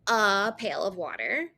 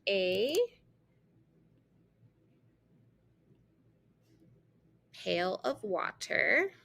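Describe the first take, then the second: First: The word 'a' is said as 'uh'. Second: The word 'a' is said as 'ay'. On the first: "say uh" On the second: "the long A"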